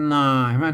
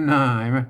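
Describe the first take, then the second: The two takes are said the same way.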